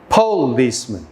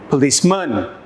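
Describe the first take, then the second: First: The stress is on the first syllable. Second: The stress is on the third syllable. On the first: "try each option" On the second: "try each option"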